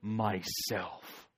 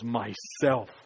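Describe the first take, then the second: First: It is said in a deep, booming voice. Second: It is said with joy in the voice.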